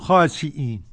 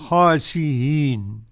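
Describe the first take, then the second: First: The glottal stop is fully pronounced. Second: The glottal stop is softened toward a vowel. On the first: "والباقون خاسئين" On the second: "أو التسهيل بين"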